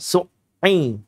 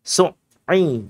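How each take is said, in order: The two takes are said the same way.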